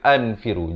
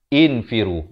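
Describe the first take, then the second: First: The word begins with an a vowel. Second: The word begins with an i vowel. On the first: The speaker calls it wrong. "bukan anfiru" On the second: The speaker calls it right. "hamzah wasal dibaca kasrah"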